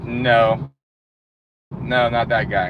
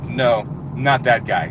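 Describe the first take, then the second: First: Lower, curt mock rejection; a hint of a bored interviewer saying no; dismissive interviewer. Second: Lower, slower mock rejection, drawn out; lightly voiced interviewer, waving him off slowly; slow dismissive interviewer. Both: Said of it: "they're like".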